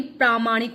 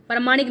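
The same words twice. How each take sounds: First: प्रामाणिक with long "praa"; correct pronunciation. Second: प्रामाणिक with short first vowel, "parmanik"; louder प्रामाणिक, said as "parmanik"; wrong pronunciation. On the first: Teacher giving the correct spelling, प्रामाणिक with long "praa". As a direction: say प्रामाणिक as "praa-maa-nik". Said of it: "प्रामाणिक होता है". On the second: Teacher rejecting the misspelling, प्रामाणिक said as "parmanik". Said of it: "प्रामाणिक नहीं". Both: Shown as a demonstration.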